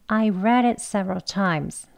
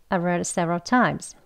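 First: The sentence is said slowly. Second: The sentence is said quickly. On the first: "천천히 해볼게요" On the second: "빨리 더 해보겠습니다"

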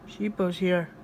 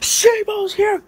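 First: It is said at a normal, quieter volume. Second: It is said loudly.

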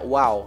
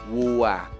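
First: The vowel sounds like "ow". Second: The vowel sounds like "ua". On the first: The speaker calls it wrong. "jangan dibaca wow ya" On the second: The speaker calls it right. "ini adalah suara uwa. Jadinya wuwa"

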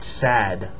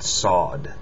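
First: The vowel is a flat 'a' sound. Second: The vowel is a deeper 'aw' sound. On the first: The speaker calls it wrong. "Not sad" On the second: The speaker calls it right. "the vowel after it is going to be more like an aw sound"

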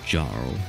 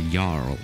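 First: The word begins with a J sound. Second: The word begins without a J sound. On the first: The speaker calls it wrong. "not Jarl" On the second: The speaker calls it right. "It's a Jarl"

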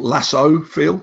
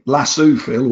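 First: Lasso is said in an American way. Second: Lasso is said in a British way.

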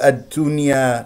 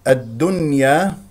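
First: The d sound releases an audible puff of breath. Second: The d sound is crisp with no breath. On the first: The speaker calls it wrong. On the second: The speaker calls it right.

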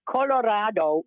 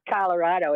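First: It is pronounced the Spanish way. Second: It is pronounced the English way. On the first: It means red. The speaker calls it right. "which in Spanish means red" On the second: It names the US state. The speaker calls it wrong. "It's not Colorado"

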